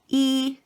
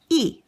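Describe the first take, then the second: First: The syllable is said with the first tone. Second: The syllable is said with the fourth tone. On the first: "accent number one" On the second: "accent number four"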